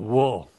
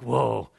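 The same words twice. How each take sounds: First: It sounds like a grave, solemn lament. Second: It sounds like a casual, amazed exclamation. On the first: Judgment is being pronounced on oneself. The speaker calls it right. "He's like, whoa. The word whoa is a pronouncement of judgment" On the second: Something is surprising or impressive. The speaker calls it wrong. "Not like"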